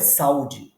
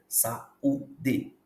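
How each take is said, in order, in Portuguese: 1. As sílabas são ditas juntas, sem pausas. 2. Cada sílaba é separada por uma pequena pausa. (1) "Não é saúde" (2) "é sa-u-d"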